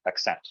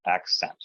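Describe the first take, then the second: First: "accent" with the punch moved to CENT; ac-CENT, back-stressed; stress on second syllable. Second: "accent" with the punch on AC; AC-cent, front-stressed; stress on first syllable. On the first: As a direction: wrongly stress the end of "accent". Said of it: "not accent". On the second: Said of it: "we have a stress accent". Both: Shown as a demonstration.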